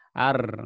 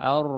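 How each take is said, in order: First: The r is trilled very strongly. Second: The r is trilled moderately, in between. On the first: This is how Indonesians say it. The speaker calls it wrong. "Kalau di Indonesia subhanallah bergetar sekali ya ro-nya. ... Ar bergetar sekali" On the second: This is how Arabs say it. The speaker calls it right. "tapi pertengahan ar"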